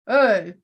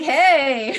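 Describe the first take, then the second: First: The greeting sounds calm, not excited. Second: The greeting sounds eager and excited. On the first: The speaker is confronting an intruder. The speaker calls it right. "you're supposed to be like" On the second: The speaker is happy to see the man. The speaker calls it wrong. "I sounded a little too excited to see him"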